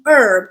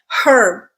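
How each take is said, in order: First: The word begins with a vowel, h silent. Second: The word begins with an audible h sound. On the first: This is the usage common in the United States. "I have started saying" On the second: This is the usage common in Britain and former colonies. "still say this word with a okay"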